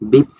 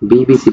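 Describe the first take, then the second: First: It is blended into one single word. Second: Each letter is said separately by name. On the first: The speaker calls it wrong. "আমরা বিপস বলি না" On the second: The speaker calls it right. "বললাম বিবিসি বলি"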